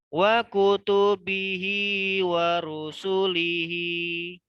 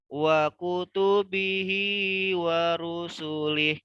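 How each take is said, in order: First: The final word ends with a vowel. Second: The final word ends with a consonant. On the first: The speaker calls it wrong. "bukan lihi ya" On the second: The speaker calls it right. "kalau di akhir itu dibaca lih aja"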